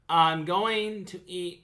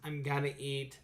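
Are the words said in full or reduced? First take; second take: full; reduced. First: Each word is said fully and separately. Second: The words are reduced and run together.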